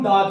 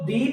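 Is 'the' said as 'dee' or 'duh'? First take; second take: duh; dee. First: The word ends in a short 'uh' vowel. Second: The word ends in a long 'ee' vowel. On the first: A consonant sound comes next. "अगर आगे consonant sound आ रहा हो तो इसको हम दा कहते हैं" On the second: A vowel sound comes next. "जब आगे वाउल साउंड आ रहा हो तो इसको दी प्रोनाउंस करेंगे"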